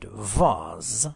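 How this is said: The word is said in a British accent.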